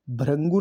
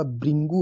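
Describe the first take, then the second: First: भृंगु said "bharangu"; wrong pronunciation. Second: भृंगु said "bhringu"; correct pronunciation. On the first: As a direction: say भृंगु with "rang". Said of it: "भृंगु नहीं होता". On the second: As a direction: give भृंगु a clear "ri". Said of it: "भृंगु होता है ये". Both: Shown as a demonstration.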